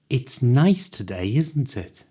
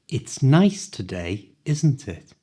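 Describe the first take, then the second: First: The sentence is spoken at full natural speed. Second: The sentence is spoken a little faster. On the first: "at the speed native people speak" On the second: "this time a little faster"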